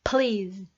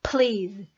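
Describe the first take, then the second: Both takes have the same delivery.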